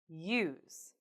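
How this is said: The pitch falls at the end. "falling intonations"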